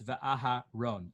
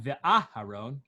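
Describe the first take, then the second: First: Va'aharon with the weight on RON; Va'aharon, landing firmly on its ending; stress at the end. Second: Va'aharon with a punched AH after Va; Va'aharon, stressed too early as a wrong example; wrong stress mid-word. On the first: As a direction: save the emphasis in Va'aharon for the last syllable. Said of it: "put the emphasis at the end". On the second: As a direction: hit the first A of Aharon in Va'aharon. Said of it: "it's not". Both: Shown as a demonstration.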